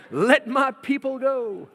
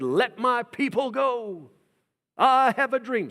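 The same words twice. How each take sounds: First: Slow, high and loud proclaiming; bold Moses proclamation. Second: Slow, high, loud proclaiming voice; bold Moses proclamation. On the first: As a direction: thunder it out to Pharaoh. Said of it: "Sorry, that's another thing". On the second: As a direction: proclaim it like a prophet before the king. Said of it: "Moses marches into the court of Pharaoh and says". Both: Retold or imitated.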